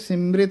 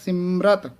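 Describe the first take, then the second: First: The word ends with 'rit'. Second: The word ends with 'rat'. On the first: The speaker calls it wrong. "ਇਹ ਸਿਮ੍ਰਿਤ ਨਹੀਂ ਹੈ" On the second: The speaker calls it right. "ਇਸ ਦਾ ਉਚਾਰਨ ਹੋਏਗਾ ਸਿਮਰਤ"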